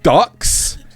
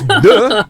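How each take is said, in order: First: The word ends with a 'ks' consonant sound. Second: The word ends on a vowel, no final consonant. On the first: The speaker calls it wrong. "It is not ducks" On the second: The speaker calls it right. "it's de"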